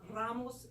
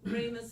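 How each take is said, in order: First: The name is said with Spanish-style vowels. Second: The name is said with English-style vowels. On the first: This is the family's original form of the name. The speaker calls it right. "the names were really Ramos" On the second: This is the adapted local form of the name. The speaker calls it wrong. "they anglicized the names to Rames"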